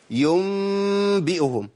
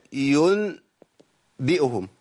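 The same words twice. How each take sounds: First: ينبئهم recited slowly and higher, ن turned into م as يمبئهم; iqlab demo. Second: ينبئهم drawn out slowly with a plain ن; slow recitation. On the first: Teacher showing iqlab, slow recitation. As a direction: slide ينبئهم into يمبئهم, nasal م held. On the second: Teacher to students, slow recited word. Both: Shown as a demonstration. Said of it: "أقول إيه".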